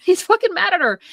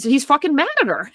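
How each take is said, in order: First: Much higher, laughing in disbelief; incredulous laughing repeat. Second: Said in the usual way. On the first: Real, not acted. Retelling the husband's anger, laughing in disbelief. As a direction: say it again like you can't believe it.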